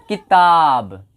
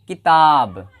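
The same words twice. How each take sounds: The two takes are said the same way.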